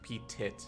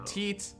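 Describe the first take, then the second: First: The second syllable sounds like 'tit'. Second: The second syllable sounds like 'teet'. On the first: The speaker calls it wrong. "anything that doesn't involve saying like P-Tit Drogo" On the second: The speaker calls it right. "It's fine"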